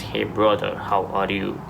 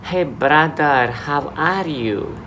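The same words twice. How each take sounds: First: Put-on African accent. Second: Put-on higher, slow, sing-song Filipino-accented greeting. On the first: Showing how English differs from person to person, African accent. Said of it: "African accent". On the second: Showing how Filipinos greet you in Dubai, Filipino accent. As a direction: draw it out high in a Filipino accent. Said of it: "Those Filipinos will come to say".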